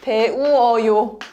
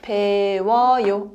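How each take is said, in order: First: The two vowels are said as separate syllables. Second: The two vowels merge into one gliding syllable. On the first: "First one it is 배우어요" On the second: "You can read it fast. Then you it became 워"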